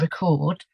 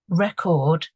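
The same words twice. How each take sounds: First: The stress is on the second syllable. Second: The stress is on the first syllable. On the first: "or the end of the word" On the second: "the stress is on either the beginning of the word"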